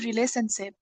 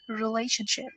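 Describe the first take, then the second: First: The middle consonant is an S sound. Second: The middle consonant is an SH sound. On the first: The speaker calls it wrong. "don't say relationship" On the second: The speaker calls it right.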